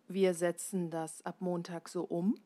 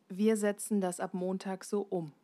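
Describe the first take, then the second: Both takes have the same delivery.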